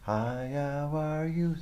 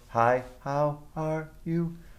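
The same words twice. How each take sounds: First: The words flow together smoothly and connected. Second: Each word is cut short and separated.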